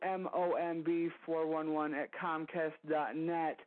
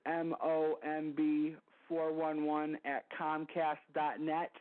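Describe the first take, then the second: First: It is said at a normal pace. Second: It is said a little more slowly.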